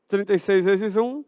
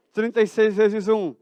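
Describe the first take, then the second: No difference in how they are said.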